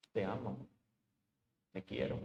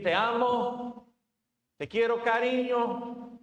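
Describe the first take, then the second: First: Quiet echo. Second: Slow, higher, drawn-out loving tone; tender words. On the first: Preacher repeats the empty love words, low and soft. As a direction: lower and much softer, almost to oneself. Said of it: "estoy gritando con mis acciones". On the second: Preacher imitates a husband's sweet talk, slow and tender. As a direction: croon it like sweet talk to a spouse. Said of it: "Podemos decir". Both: Retold or imitated.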